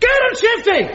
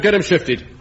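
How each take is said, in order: First: It is shouted much louder. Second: It is said at a normal loudness.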